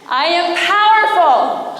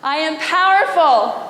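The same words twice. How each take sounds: First: It is shouted very loudly. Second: It is said a little louder.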